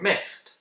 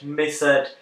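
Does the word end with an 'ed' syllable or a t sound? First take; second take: t sound; ed syllable. First: The ending is a plain t sound. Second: The ending is a separate 'ed' syllable. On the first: The speaker calls it right. "we pronounce the ed as t" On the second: The speaker calls it wrong. "We never, ever pronounce regular past simple verbs as ed"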